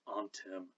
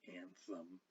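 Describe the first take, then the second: First: The middle consonant is a plain t sound. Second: The middle consonant is a th sound. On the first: The speaker calls it right. "ought to be pronounced antem" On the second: The speaker calls it wrong. "not anthem"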